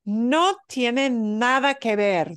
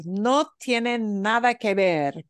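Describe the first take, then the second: First: Slow model phrase. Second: Said in the usual way. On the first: Shown as a demonstration. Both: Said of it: "this one she repeated a bunch".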